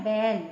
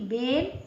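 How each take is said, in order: First: बैल with a big, open ऐ vowel; बड़ा ऐ. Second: बेल with the narrower ए vowel; छोटा ए. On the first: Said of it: "बा में ऐ की मात्रा लगा दी". (बैल में मुंह खोलकर ऐ) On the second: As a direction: say बेल with ए, not open ऐ. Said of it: "एक मात्रा बा में है". (बेल में छोटी ए की आवाज़) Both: Shown as a demonstration.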